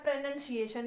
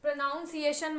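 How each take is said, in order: First: "pronunciation" with "nun" in it; short u in "pronunciation"; correct "pronunciation". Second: "pronunciation" said as "pro-noun-ciation"; mispronounced "pronunciation" with an ow vowel; wrong "pronunciation". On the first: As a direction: say "pronunciation" the proper way. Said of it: "ये होता है". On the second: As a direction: put "noun" inside "pronunciation". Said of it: "मत बोलिएगा". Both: Shown as a demonstration.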